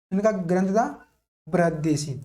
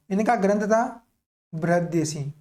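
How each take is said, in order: Both takes have the same delivery.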